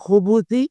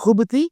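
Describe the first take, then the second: First: A u vowel comes between b and th. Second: The b is followed directly by th. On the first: "ബാഇന് വമ്മ കൊണ്ടും" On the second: "ബാഇന് സുക്കൂന് കൊണ്ടും"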